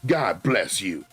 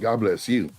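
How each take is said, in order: First: It is said in an ugly, mocking voice. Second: It is said in a plain, normal voice.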